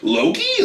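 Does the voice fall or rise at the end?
rise. It rises at the end like a question.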